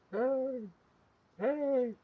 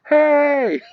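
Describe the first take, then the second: First: High, soft distant yell; yelling from far away. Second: High, loud imitated shout; yell from really close. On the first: Retold or imitated. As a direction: imitate a tiny faraway shout, high-pitched and small. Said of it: "yelling from far away". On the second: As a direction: mimic someone yelling right up close, high and full. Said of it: "they're getting really close".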